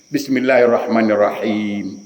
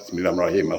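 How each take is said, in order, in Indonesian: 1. Dibaca hati-hati, vokal panjang ditahan penuh panjangnya. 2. Dibaca cepat, vokal panjang dipotong pendek. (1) "Cepat boleh cepat, tapi jangan langgar tajwid" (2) "Baca Fatihah rata-rata salah"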